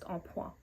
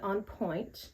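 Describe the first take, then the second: First: The first word is said the French way, 'en'. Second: The first word is said like English 'on'. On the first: The speaker calls it right. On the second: The speaker calls it wrong.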